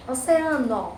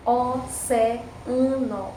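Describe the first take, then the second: First: Said in the usual way. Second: "Oceano" very slowly as o, ce, a, no; syllable by syllable. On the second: Shown as a demonstration. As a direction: stretch "Oceano", each syllable on its own. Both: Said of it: "se separaram".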